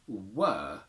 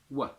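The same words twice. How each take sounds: First: The word is said with a full vowel. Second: The word is said with a reduced vowel.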